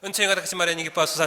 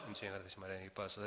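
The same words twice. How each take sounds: First: The prayer is said in a loud voice. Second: The prayer is murmured in a quiet voice. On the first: Nobody else is around. "나중에 사람 없으면은" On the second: Other people might be nearby. "처음에는"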